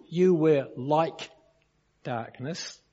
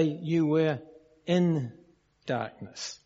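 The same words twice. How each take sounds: First: LIKE drawn out and set apart by a pause; stress on LIKE. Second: IN set apart between pauses; pause, then lean on in; stress on IN. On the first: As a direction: lean on like, then pause. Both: Shown as a demonstration. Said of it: "It does not say".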